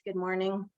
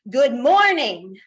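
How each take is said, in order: First: It is said at normal, everyday volume. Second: It is said in a big, loud voice. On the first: The speaker calls it wrong. "just in your normal voice" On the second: The speaker calls it right. "use your big, loud voice"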